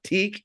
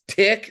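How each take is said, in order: First: The syllable has a long 'ee' vowel. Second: The syllable has a short 'i' vowel. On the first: The speaker calls it wrong. "not teak" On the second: The speaker calls it right. "So it's tick"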